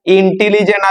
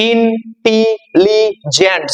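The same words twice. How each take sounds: First: Said in the usual way. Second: ইন্টেলিজেন্ট very slow, split into four separate syllables. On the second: Shown as a demonstration. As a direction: break ইন্টেলিজেন্ট apart, a beat on each syllable. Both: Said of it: "সিলেবেলে ভাঙছে".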